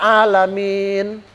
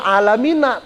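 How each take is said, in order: First: The word ends on the n consonant. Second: The word ends with a short a vowel. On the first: This is the reading when stopping at the verse end. "Tapi kita baca alamin" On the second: This follows the written vowel mark. "alamina tulisannya"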